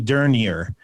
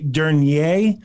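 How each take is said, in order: First: The name is said with an American pronunciation. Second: The name is said with a French pronunciation. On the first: "the American pronunciation" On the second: "the French pronunciation"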